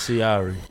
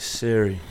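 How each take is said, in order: First: The name sounds like the word sire. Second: The name sounds like the phone assistant Siri. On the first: This is the name's real pronunciation. The speaker calls it right. "It's Sire" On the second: This is how other people mispronounce it. The speaker calls it wrong. "How do they say it? What's the worst that you heard?"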